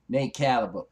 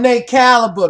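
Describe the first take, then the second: First: It is said in a normal speaking voice. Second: It is said in a put-on superhero voice.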